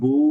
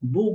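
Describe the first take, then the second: First: The vowel is drawn out long. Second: The vowel is cut off short. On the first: The speaker calls it right. "এক আলিফ টেনে উচ্চারণ করলাম বু" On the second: The speaker calls it wrong. "বু বলে ছেড়ে দিন, তাহলে কিন্তু ভুল হবে"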